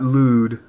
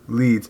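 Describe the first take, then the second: First: The vowel sounds like 'oo' in 'food'. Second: The vowel sounds like 'ee' in 'feed'. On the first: The speaker calls it wrong. "it's not lewd like quaaludes" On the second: The speaker calls it right. "It's leads"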